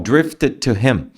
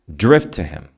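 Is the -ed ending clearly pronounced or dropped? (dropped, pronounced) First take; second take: pronounced; dropped. First: The -ed ending is fully pronounced before to. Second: The -ed ending is dropped and merged into to. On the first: The speaker calls it wrong. "Não tem como" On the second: The speaker calls it right. "Você meio que elimina o som do T e D aqui no final"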